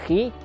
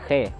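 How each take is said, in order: First: The vowel after kh sounds like i. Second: The vowel after kh sounds like e. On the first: The speaker calls it right. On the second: The speaker calls it wrong. "bukan khe"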